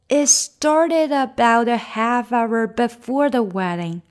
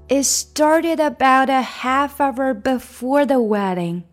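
Both takes have the same delivery.

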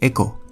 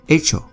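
First: The middle consonant is not a 'ch' sound. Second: The middle consonant is a 'ch' sound. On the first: The speaker calls it wrong. "不是echo" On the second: The speaker calls it right. "C 加H 的发音是ch ch ch ch"

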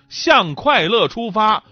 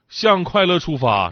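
First: It is said in standard Mandarin tones. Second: It is said with Northeastern dialect tone values. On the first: "这就是普通话" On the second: "这就是东北话"

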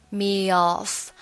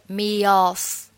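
Both takes have the same delivery.

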